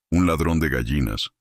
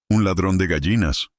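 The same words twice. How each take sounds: First: Said in the usual way. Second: Understated bellow. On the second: A narrator's reading. Delegate telling the gathered villagers, understated bellow. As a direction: announce the culprit with mild, raised-pitch outrage. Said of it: "bramó".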